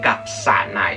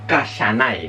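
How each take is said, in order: First: The middle syllable is pronounced 'sa'. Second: The middle syllable is pronounced 'sha'. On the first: The speaker calls it right. "el sí se convierte en un sa normal y corriente" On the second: The speaker calls it wrong. "no se dicen kashanai"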